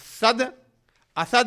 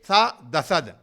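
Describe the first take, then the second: First: The d closes the first syllable, split by meaning. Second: The d is joined onto the next syllable. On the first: The word boundaries show the meaning. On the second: This is the traditional recitation style.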